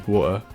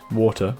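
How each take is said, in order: First: The word is said in a Nottingham accent. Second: The word is said in a neutral accent. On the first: "because of my Nottingham accent" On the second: "it is water"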